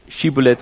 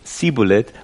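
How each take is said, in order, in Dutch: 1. Het woord begint met een sh-klank. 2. Het woord begint met een s-klank. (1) "Het goede uitspreken van shibboleth" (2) "met een S, en het woord dus niet goed uitsprak"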